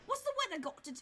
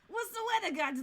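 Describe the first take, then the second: First: It is said in a British accent. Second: It is said in a Brooklyn accent.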